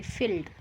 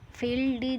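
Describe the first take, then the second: First: Said in the usual way. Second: फील्ड ही with an added vowel, "feel-dee"; wrong reading. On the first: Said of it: "इसको बोलेंगे फील्ड". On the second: Shown as a demonstration. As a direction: add an ee after the final d of फील्ड ही. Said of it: "नहीं बोलेंगे". (फील्ड ही, आख़िर में "डी" जैसा बोलकर)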